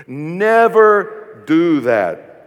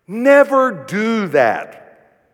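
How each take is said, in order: First: Very slow, louder, leaning on Never; Never dragged and punched; slow emphatic repeat. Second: Very slow, stress on Never; Never held long and heavy; slow emphatic. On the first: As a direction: drag each word, Never hit hardest. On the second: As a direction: stretch out Never do that. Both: Shown as a demonstration. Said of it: "just say that with me".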